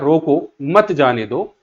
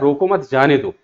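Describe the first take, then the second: First: The pause comes after रोको. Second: The pause comes after मत.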